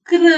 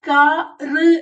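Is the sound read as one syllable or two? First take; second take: one; two. First: It is read as one joined syllable. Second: It is read as two separate syllables. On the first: The speaker calls it right. "അക്ഷരത്തിന്റെ കൂടെ തന്നെ വായിക്കണം" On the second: The speaker calls it wrong. "എന്നാണോ? അല്ല"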